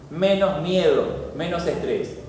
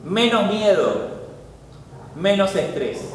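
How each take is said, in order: First: Slow, soft and lower, lulling; preacher lulling the congregation, slow and soft; soothing hush. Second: Said in the usual way. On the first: Shown as a demonstration. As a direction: say it like calming a child to sleep. Repeats the benefits, soothing.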